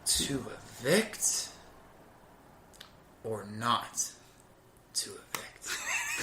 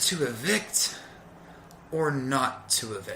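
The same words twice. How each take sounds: First: It is said with a longer pause. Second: It is said with a short pause.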